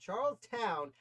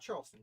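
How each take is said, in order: First: The last syllable is said as 'town'. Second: The last syllable is said as 'ston'. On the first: The speaker calls it right. "I will pronounce it as it's spelled" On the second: The speaker calls it wrong. "not Charleston"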